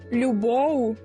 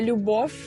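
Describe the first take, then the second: First: The final consonant is voiced, like v. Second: The final consonant is devoiced, like f. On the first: The speaker calls it right. "не оглушують дзвінких" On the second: The speaker calls it wrong. "а не «любов»"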